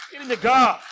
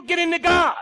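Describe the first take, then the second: First: Said in the usual way. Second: Emphatic shout. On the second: Acted. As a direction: shout it out to the congregation. Preacher exhorting, repeated call.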